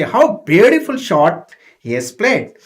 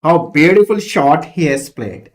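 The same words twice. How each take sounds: First: Louder, astonished praise of the shot; astonished crowd. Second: Loud, admiring call of the shot; admiring exclamation. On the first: Crowd astonished at the batsman's shot, loud praise. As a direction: marvel at the unexpected stroke. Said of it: "they were astonished, they were surprised". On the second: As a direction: praise the batsman's stroke. Example exclamation read. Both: Shown as a demonstration.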